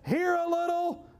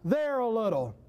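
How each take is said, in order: First: Here a little, lifted high; stress on here. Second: There a little, dropped low and falling; there said low with a falling close; stress on there. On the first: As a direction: lift the word here up. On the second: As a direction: drop the word there low. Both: Shown as a demonstration. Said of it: "Look at this".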